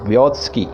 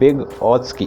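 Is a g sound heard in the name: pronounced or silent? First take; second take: silent; pronounced. First: The g sound is left out of the name. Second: A g sound is clearly heard in the name. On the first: The speaker calls it right. "देखिए जी इसमें silent है" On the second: The speaker calls it wrong. "अगर spelling के हिसाब से बोलें तो ये होता है ... वो गलत उच्चारण है"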